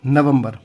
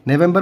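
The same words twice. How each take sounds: First: Last "नवंबर" as Hindi na-vam-bar; Hindi pronunciation. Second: First "नवंबर" as English ne-VEM-ber; English pronunciation. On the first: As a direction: say "नवंबर" with short a vowels. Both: Shown as a demonstration. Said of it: "नवंबर मतलब नवंबर".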